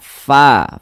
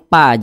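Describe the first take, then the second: First: It starts with a breathy f sound. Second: It starts with a closed p sound. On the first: The speaker calls it right. "ada nafas yang mengalir ketika kita mengucapkannya" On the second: The speaker calls it wrong. "jangan pa"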